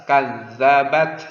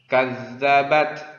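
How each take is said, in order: Both takes have the same delivery.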